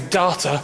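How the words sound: It uses the New Zealand pronunciation. "people in New Zealand say data"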